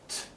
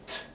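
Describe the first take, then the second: No difference in how they are said.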